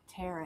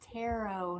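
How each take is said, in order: First: The word rhymes with carrot. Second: The word does not rhyme with carrot. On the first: The speaker calls it wrong. "not tarot. It doesn't rhyme with carrot" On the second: The speaker calls it right. "it's tarot"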